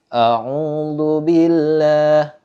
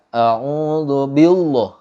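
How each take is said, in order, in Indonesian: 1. Huruf l dalam billah itu tipis dan ringan. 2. Huruf l dalam billah itu tebal dan berat. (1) "tapi harus dibaca tipis" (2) "Nggak boleh dibaca"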